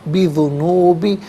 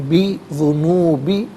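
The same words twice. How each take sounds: Both takes have the same delivery.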